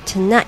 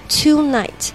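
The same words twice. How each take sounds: First: The first vowel is a reduced, weak sound. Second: The first vowel is a full 'oo' sound. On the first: The speaker calls it right. "我们发tonight a 的音tonight" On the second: The speaker calls it wrong. "虽然是to，但是我们不发tonight"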